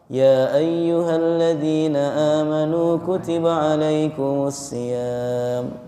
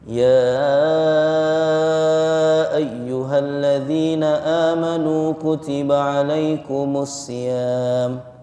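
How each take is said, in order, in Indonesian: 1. Vokal pembuka dibaca pendek, dua harakat. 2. Vokal pembuka dibaca panjang, enam harakat. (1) "mat jaiz itu dua harokat" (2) "iyanya panjang, enam harokat"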